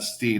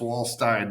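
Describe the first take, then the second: First: The last syllable rhymes with 'seen'. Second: The last syllable rhymes with 'line'. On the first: The speaker calls it wrong. "not Steen" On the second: The speaker calls it right. "It's Wallstein"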